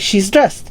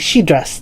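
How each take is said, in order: First: The s sound after 'she' is clearly heard. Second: The s sound after 'she' is left out. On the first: The speaker calls it right. "if you say it like you know normally" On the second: The speaker calls it wrong. "sometimes it sounds like she dressed"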